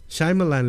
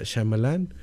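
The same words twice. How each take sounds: First: Shyamalan said the English way, first syllable like "shy"; higher, louder "Shyamalan" with an English "shy" opening; English pronunciation. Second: Said in the usual way. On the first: Shown as a demonstration. Host showing listeners the English name, Shyamalan pronounced as SHY-ma-lan. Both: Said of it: "le pronuncian en inglés".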